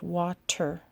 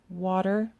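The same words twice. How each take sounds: First: The middle consonant is a clear T sound. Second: The middle consonant sounds like a soft D. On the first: "instead of water" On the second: "Most people say this word water"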